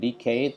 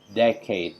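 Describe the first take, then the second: First: The stress is on the second syllable. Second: The stress is on the first syllable. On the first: The speaker calls it wrong. "bukan decade" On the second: The speaker calls it right. "dengan penekanan pada uh, suku kata yang pertama"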